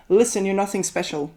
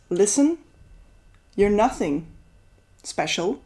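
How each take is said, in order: First: Said in the usual way. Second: "Listen," rising, then long pauses before "you're nothing" and "special."; different intonation. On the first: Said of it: "read it out loud without putting in the right intonation". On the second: Shown as a demonstration. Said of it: "if you read it in a different way".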